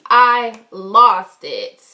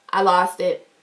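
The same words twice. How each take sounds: First: "I lost it" drawn out slowly and louder; emphatic repeat. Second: Said in the usual way. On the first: Retold or imitated. Storyteller admits losing her cool, emphatic and slow. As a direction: stretch "I" and "lost" with heavy weight.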